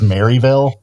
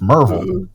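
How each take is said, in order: First: The name starts with a full 'Mary' sound. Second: The name starts with a short 'Mer' sound. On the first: This is how an outsider says it. The speaker calls it wrong. "he says Maryville" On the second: This is how locals say it. The speaker calls it right. "It's Merville"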